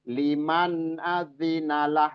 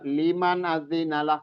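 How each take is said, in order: First: The phrase is said at a measured pace. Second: The phrase is rushed through quickly. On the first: The speaker calls it right. "Jadi disempurnakan aja" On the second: The speaker calls it wrong. "Jadi jangan juga liman azinalah kecepatan"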